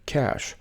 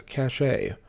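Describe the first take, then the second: First: Cachet said like cash, one syllable; correct pronunciation. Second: Cachet said ka-SHAY; common mispronunciation. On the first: Teacher showing viewers the right way. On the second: Teacher showing viewers the wrong way. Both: Shown as a demonstration. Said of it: "often mispronounced as cachet".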